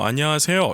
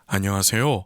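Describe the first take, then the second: First: The sound is pushed forward and tightly focused. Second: The sound is round and spread, resonating broadly. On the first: This is the typical Spanish way of speaking. "이렇게 앞으로 소리를 좀 모아 주어야" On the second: This is the typical Korean way of speaking. "소리가 둥글게 공간 공명을 일으켜요"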